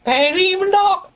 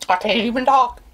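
First: High strained words through sourness; mouth puckered. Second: Mouth puckered. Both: Real, not acted.

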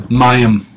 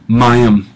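The two takes are said the same way.

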